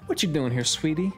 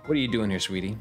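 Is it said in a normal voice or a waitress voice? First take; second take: waitress voice; normal voice. First: It is said in a Waffle House waitress voice. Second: It is said in the speaker's normal voice.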